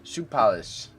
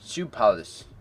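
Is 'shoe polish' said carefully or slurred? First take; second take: slurred; slurred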